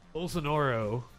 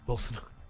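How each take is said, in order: First: The name is pronounced in its standard way. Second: The name is pronounced in a deliberately mangled way. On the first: The speaker calls it right. "That's the correct pronunciation" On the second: The speaker calls it wrong. "I've been fucking it up on purpose"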